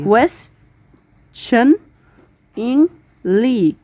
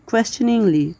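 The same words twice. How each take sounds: First: কোয়েশ্চেনিংলি drawn out very slowly in four syllables, ques-tion-ing-ly; teacher breaking the word into four parts; split into syllables. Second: Said in the usual way. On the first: Shown as a demonstration. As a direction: sound out কোয়েশ্চেনিংলি slowly, one syllable at a time. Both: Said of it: "চার ভাগে ভাগ করেছি".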